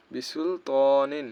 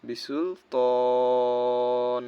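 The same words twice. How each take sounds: First: Recited বিসুল ত নিন, ending on a clear nin; spelled-out reading. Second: বিসুল তন with a very long held o closing on a bare n; slow, sustained recitation, তন prolonged to the stop; waqf stop, long stretch. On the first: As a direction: lengthen ত moderately, then say নিন in full. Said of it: "বানান করে যেটা আমরা বুঝি". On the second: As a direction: drop the last syllable, hold the vowel of তন steadily. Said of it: "এখন এখানে ওয়াকফ করলে হবে". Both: Shown as a demonstration.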